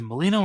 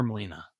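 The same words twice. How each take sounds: First: Molino with a final "oh" sound; mispronounced surname. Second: Molina with a final "ah" sound; corrected surname. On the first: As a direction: end Molino on a long o. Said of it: "I always screw that up". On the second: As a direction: end Molina on an open a. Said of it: "It's Molina?". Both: Shown as a demonstration.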